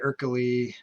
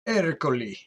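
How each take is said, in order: First: The name is said with English-style sounds. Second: The name is said with Italian-style sounds. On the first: The speaker calls it wrong. "I'm sure that's not how you pronounce it" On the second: The speaker calls it right. "He's Italian"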